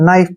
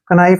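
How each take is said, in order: First: The word begins directly with the n sound. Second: The word begins with an audible k sound. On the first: The speaker calls it right. "नाइफ पढ़ते हैं" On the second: The speaker calls it wrong. "कनाइफ नहीं पढ़ते हैं"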